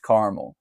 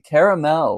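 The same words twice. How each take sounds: First: It is said in a plain American accent. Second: It is said in a fancy British accent. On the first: "not caramel" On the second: "I'll say it like I'm British. say I like to say it very fancy"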